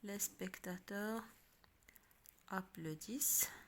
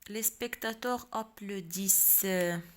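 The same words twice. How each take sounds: First: It is said with question intonation. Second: It is said with plain statement intonation. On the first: It asks whether the fact is true. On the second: It states a fact.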